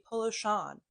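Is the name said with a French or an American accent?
American. It is said with an American accent.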